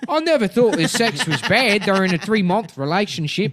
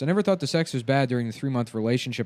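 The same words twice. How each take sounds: First: It is read in a put-on character voice. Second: It is read in a plain, normal voice.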